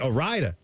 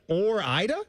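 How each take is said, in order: First: The r is joined to Ida, like Rida. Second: The r stays with the first part, Ida separate. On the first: The speaker calls it wrong. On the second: The speaker calls it right.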